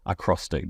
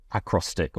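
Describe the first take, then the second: First: Acrostic with the middle syllable stressed; acrostic, stressed on CROS; stress on second syllable. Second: Acrostic with the first syllable stressed; acrostic, front-stressed. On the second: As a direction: hit the opening A of acrostic. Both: Shown as a demonstration. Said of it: "depending where you want to put the emphasis".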